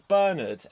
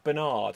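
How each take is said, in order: First: The name is said in a non-American way. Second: The name is said in an American way. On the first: "you get the name Bernard" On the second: "the Americans say Bernard"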